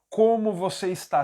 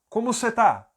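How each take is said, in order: First: Every word is said in full form. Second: The words are shortened to cê and tá. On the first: This is the complete form, not used in São Paulo speech. The speaker calls it wrong. "Você não vai ouvir ninguém falando" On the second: This is how everyone in São Paulo actually says it. The speaker calls it right. "O você vira apenas C. ... o está vira apenas tá"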